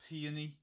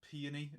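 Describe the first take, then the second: First: The word is said with three syllables. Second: The same.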